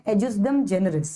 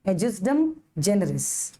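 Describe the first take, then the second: First: Adjustum generis said at a slowish pace, falling at the end; name the Latin term once before the drill; first take of the term. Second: Adjustum generis drawn out very slowly, syllable by syllable; very slow model pronunciation. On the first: Teacher first names the term for the class, slowish. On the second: Teacher models the term very slowly for students to repeat. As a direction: say it slowly so students can copy. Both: Shown as a demonstration. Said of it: "क्या बोलोगे".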